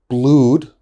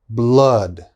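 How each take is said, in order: First: The vowel sounds like a long oo. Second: The vowel sounds like a strong ah. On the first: The speaker calls it wrong. "My students often say blood. That is wrong" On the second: The speaker calls it right. "So it's a very strong ah"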